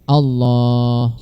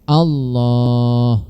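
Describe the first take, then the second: The two takes are said the same way.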